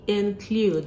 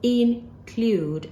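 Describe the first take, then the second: First: The first vowel is a short i sound. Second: The first vowel is not a short i sound. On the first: The speaker calls it right. "It's actually include. The, the sound is I" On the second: The speaker calls it wrong. "This word is not pronounced include as we've been doing before"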